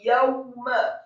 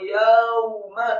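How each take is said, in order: First: The w sound is quick and closed. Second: The w sound is slow and drawn out. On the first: The speaker calls it right. "dengan gerakan mulut agak cepat dan ditutup" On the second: The speaker calls it wrong. "jangan yauma"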